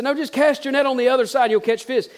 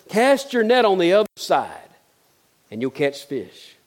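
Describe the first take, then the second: First: Higher, pressing the word cast; insistent repeat. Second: Said in the usual way. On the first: Retold or imitated. Jesus repeats to tired fishermen: cast your net, insistent. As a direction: urge them again, no arguing.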